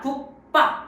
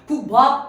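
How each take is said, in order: First: The second syllable starts with a tense pp. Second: The second syllable starts with a plain, lax b. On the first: The speaker calls it right. "이렇게 발음이 된다는 거죠" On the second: The speaker calls it wrong. "국밥 아니라"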